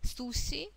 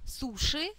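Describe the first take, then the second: First: The middle consonant is a soft, si-like sound. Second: The middle consonant is a hard Russian sh. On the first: This is the original Japanese way of saying it. "по-японски звучит иначе... это не ши, не си, это суши" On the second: This is the usual Russian way of saying it. "который принято называть у нас суши"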